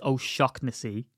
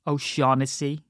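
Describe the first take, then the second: First: "O'Shaughnessy" as oh-SHOCK-nessy; slow "O'Shaughnessy" with a K sound for GH; correct pronunciation. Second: "O'Shaughnessy" as oh-SHAW-nessy; common mispronunciation. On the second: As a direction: silent GH in "O'Shaughnessy", rising end. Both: Shown as a demonstration. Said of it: "names that are mispronounced".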